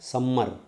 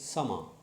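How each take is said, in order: First: The m sound is held long, doubled. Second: The m sound is short, single. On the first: The speaker calls it wrong. "People used to say this one as summer. No" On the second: The speaker calls it right. "it is summer"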